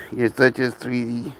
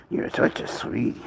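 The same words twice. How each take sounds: First: Said in the usual way. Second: Soft whisper to the pet. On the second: Real, not acted. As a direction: breathe it tenderly to the animal.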